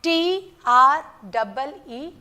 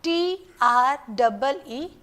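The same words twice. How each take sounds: First: T R E E, letters slow and apart; slow spelling. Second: T R E E, slow letters again; slow spelling repeated. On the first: Teacher spelling for class, slow letters. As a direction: spell T R E E slowly one by one. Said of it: "Listen carefully". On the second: Teacher repeating spelling, slow letters. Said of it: "Again, once again". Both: Shown as a demonstration.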